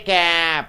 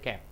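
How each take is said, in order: First: The vowel in cap is long and drawn out. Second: The vowel in cap is short and clipped. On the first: The speaker calls it wrong. "You don't say cap" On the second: The speaker calls it right. "You say cap"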